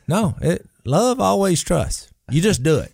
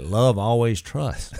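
First: Pushing the point hard in an argument, pitch way up; heated insisting. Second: Said in the usual way. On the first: Retold or imitated. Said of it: "we were arguing about it". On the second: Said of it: "I was reading First Corinthians thirteen".

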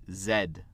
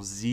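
First: Z said "zed", short vowel and final D; non-American Z, "zed"; British-style Z. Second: Z said "zee"; US-style Z, "zee"; American Z. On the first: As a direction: close Z with a D, as "zed". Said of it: "ils disent Z". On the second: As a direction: end Z on a long ee, no D. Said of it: "les pays qui sont pas les États-Unis". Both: Shown as a demonstration.

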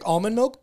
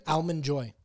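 First: Almond said as "AHL-mund"; almond with an open ah. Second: Almond said as "AL-mund"; Almond with the a of cat; almond with short a. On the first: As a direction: say almond starting like "all". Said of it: "I'll drink almond milk". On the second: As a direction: say Almond starting like the name Al. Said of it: "but I'll eat an Almond Joy". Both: Shown as a demonstration.

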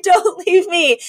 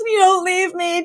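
First: Slow, louder hammed-up plea through laughter; imitating Cece sobbing over the body; drawn-out mock wail. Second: High hammed-up sob of a plea; imitating a melodramatic widow's cry; mock wailing plea. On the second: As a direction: throw yourself on him, overacting grief. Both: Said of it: "jumps on the gurney and goes".

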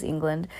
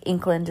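First: Said in the usual way. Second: "England" with a k, as Ink-land; witch's pronunciation. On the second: Shown as a demonstration. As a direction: harden the g of "England" to k. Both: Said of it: "I think England is England".

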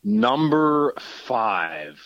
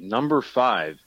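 First: Stretched very slowly while thinking; drawn-out stalling. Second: Said in the usual way. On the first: Shown as a demonstration. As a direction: drag the words out to buy time.

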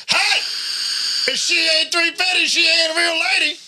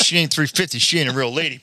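First: High, hollered truck-driver impersonation; mock holler. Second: Said in the usual way. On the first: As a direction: call it out high like the man in the truck. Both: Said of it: "it was a fat man in a little truck".

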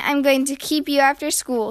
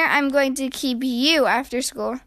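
First: Said in the usual way. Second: "you" stressed and stretched in retort. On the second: A narrator's reading. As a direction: lean on "you" to turn it back. Threat thrown back with stress.

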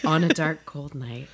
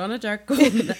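First: Hushed, dropping storyteller voice; narrator voice. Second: Said in the usual way. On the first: Shown as a demonstration. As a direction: say the title like opening a tale. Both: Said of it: "There's the narrator voice".

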